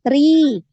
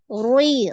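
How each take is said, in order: First: The r is light, with the tongue back lowered. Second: The r is heavy, with the tongue back raised. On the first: The speaker calls it right. "diturunkan ya pangkal lidahnya diturunkan" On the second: The speaker calls it wrong. "hati-hati kasrahnya ikut naik"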